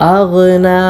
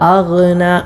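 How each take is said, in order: Both takes have the same delivery.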